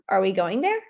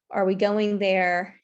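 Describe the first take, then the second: First: The pitch rises at the end. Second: The pitch falls or stays level at the end. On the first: The speaker sounds unsure and lacking confidence. The speaker calls it wrong. "upspeak is the upward tone um, at the end of a sentence" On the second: The speaker sounds self-assured. The speaker calls it right. "instead of saying"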